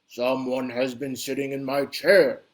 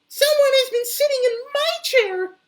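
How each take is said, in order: First: A big, deep, bellowing Papa Bear voice. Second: A high, tiny, crying Baby Bear voice.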